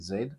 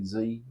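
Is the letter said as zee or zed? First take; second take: zed; zee. First: The letter is said the speaker's own way, zed. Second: The letter is said the American way, zee.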